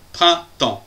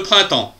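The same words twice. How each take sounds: First: "Printemps" in two separated beats; "Printemps" broken cleanly in two; syllable by syllable. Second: Said in the usual way. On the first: Shown as a demonstration. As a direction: pause between the syllables of "Printemps". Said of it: "deux syllabes".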